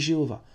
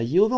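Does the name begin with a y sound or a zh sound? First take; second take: zh sound; y sound. First: The name begins with a zh sound. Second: The name begins with a y sound. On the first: This is the French form of the name. "en français ... on dit Jéhovah" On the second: This is the Hebrew form of the name. "en hébreu ... c'est un yod"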